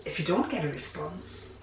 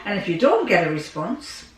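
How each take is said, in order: First: Much softer repeat of "if you don't get a response"; quiet. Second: Said in the usual way. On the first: Real, not acted. Quiet take repeating it to her viewers. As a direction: drop the voice right down on the repeat.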